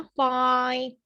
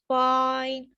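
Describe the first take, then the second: First: फाइन with every sound clearly heard; clear pronunciation. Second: फाइन, every sound clearly heard; clear pronunciation. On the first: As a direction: sound out फाइन, F, AI and N all distinct. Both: Shown as a demonstration. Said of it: "पूरे चार पांच sound आपको सुनाई देते हैं".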